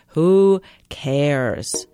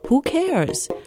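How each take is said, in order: First: It sounds dismissive, brushing the topic off. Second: It sounds like a sincere, searching question. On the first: The matter is not worth attention. "How many times do you say that in a day" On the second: The speaker really asks who is concerned. "say it differently. Change the inflection"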